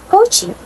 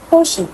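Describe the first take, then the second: First: The middle sound is a hard ch. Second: The middle sound is a soft sh.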